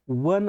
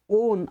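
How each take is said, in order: First: The word starts with a W consonant sound. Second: The word starts with a plain O vowel. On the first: The speaker calls it right. "याचा उच्चार वन असा होतो" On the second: The speaker calls it wrong. "याचा उच्चार ओन असा येत नाही"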